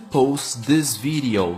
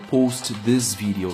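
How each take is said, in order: First: The two t sounds merge into one. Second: Both t sounds are pronounced separately. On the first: The speaker calls it right. "uma sai fora" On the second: The speaker calls it wrong. "Não está errado se falar também, mas a gente está querendo aprimorar e deixar mais natural"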